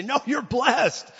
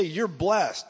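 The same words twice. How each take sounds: First: "No, you're blessed" high and drawn out; insistent declaration. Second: Said in the usual way. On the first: Acted. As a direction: insist slowly on "blessed", pitched way up. Insistent second take of blessing.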